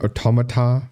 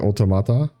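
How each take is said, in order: First: The word does not start with a clear 'auto'. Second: The word starts with 'auto', followed by 'mata'. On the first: The speaker calls it wrong. "I think that's the wrong way to say it" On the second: The speaker calls it right. "it's auto and then mata behind it"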